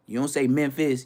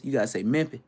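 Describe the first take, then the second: First: Said in the usual way. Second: "Memphis" said "Mimfih" with the final s dropped; local Memphis pronunciation. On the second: Shown as a demonstration. To viewers, showing the local way to say "Memphis".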